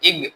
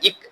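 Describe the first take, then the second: First: The consonant is a soft g sound. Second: The consonant is a hard k sound. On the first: The speaker calls it right. "இங்கிலீஷ்ல ஜி அப்படிங்கிற எழுத்துக்கு இணையான ஒரு ஒலி" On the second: The speaker calls it wrong. "இக் அப்படின்னு உச்சரிக்க கூடாது"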